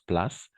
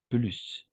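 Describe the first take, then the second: First: The word is pronounced the English way. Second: The word is pronounced the French way. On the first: The speaker calls it wrong. "Je sais que en anglais, on prononce place" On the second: The speaker calls it right. "mais en français, on va prononcer plus"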